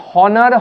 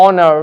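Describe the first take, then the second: First: "হনার" with the h sounded; wrongly aspirated "হনার"; wrong pronunciation. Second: "অনার" starting on the vowel; silent h. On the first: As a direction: start "হনার" on an audible h. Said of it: "হনার হবে না". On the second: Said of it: "এইচ silent রয়েছে তাই". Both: Shown as a demonstration.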